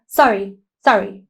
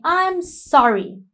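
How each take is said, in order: First: Quick throwaway sorry, sorry; dismissive sorry. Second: Put-on slow, gentle, pitched higher, a truly sorry child; sincere sorry. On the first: Shown as a demonstration. Teacher showing children an insincere, careless apology. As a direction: brush it off without meaning it. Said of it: "So you can't just say". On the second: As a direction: friend gently apologizing for the broken toy, sincere and slow. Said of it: "And his friend is saying".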